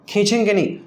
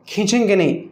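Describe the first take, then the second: Both takes have the same delivery.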